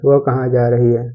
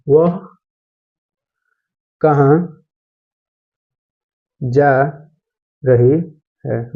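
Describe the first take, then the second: First: Said in the usual way. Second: Each word spaced out with long pauses, very slow; slow, spaced-out classroom dictation. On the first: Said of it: "teacher repeats sentence normally". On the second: Shown as a demonstration. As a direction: dictate it word by word for students to write. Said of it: "teacher dictating sentence word by word".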